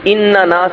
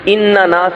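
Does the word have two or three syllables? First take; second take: three; three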